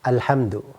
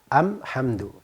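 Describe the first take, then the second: First: The article is pronounced with an L sound. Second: The article is pronounced with an M sound. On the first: This is the standard article form. "alif lam" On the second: Some Arabs use this dialect form of the article. "Dia tidak baca alhamdu, tapi amhandu"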